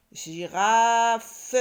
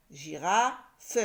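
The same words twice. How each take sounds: First: GIRAFE loud and stretched, gi-raaa-fe; syllable by syllable. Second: GIRAFE at usual loudness, gira, then a separate FE; syllables split. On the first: Teacher reads the word, GIRAFE loudly drawn out. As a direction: sound out GIRAFE with a long A and full final FE. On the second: Teacher rereads the word, GIRAFE with its end detached. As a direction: pause before the last syllable of GIRAFE. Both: Shown as a demonstration. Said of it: "il me reste la syllabe feu".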